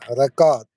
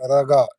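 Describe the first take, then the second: First: The word is said in full, as an Italian says it. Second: The word is clipped, the way the show says it.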